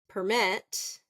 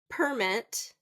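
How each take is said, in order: First: It is said as the verb, stressing the second syllable. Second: It is said as the noun, stressing the first syllable. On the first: It names an action. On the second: It names a thing.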